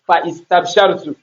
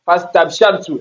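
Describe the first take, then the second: First: An 'i' vowel is sounded before 'st'. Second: The vowel before 'st' is dropped. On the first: The speaker calls it wrong. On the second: The speaker calls it right.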